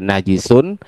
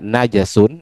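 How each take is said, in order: First: The second syllable has the vowel i. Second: The second syllable has the vowel a. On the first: "bisa dibaca eh, najisun" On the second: "bisa baca najasun"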